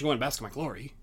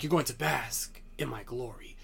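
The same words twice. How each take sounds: First: The line is said flatly, like ordinary speech. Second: The line is said forcefully, with strong emphasis. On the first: The catchphrase is just dropped in as an ordinary remark. The speaker calls it wrong. "He doesn't say, "Oh, and after the match" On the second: The speaker believes what he is saying. The speaker calls it right. "he's like, ... he puts the emphasis on the catchphrases"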